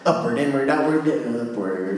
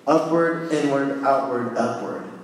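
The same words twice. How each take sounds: First: It is said quickly, words run together. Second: It is said at a normal, unhurried pace.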